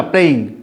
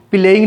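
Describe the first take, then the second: First: प्लेइंग said as one clean syllable cluster, play-ing; correct playing. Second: प्लेइंग with an extra vowel, like pi-laying; the common mistake, प्लेइंग split as pi-leying; wrong playing. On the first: Teacher gives students the right way, प्लेइंग as play-ing. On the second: Teacher shows students the wrong pronunciation, प्लेइंग as pi-laying. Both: Shown as a demonstration. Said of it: "प्लेइंग नहीं बोलना".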